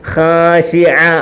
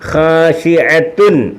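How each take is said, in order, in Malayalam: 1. ഈ വാക്ക് 'tun' ശബ്ദമില്ലാതെ അവസാനിക്കുന്നു. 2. ഈ വാക്ക് 'tun' ശബ്ദത്തിൽ അവസാനിക്കുന്നു. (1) "പിന്നെ എങ്ങനെ പറയും?" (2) "ഖാശിഅത്തുൻ പറയത്തില്ല"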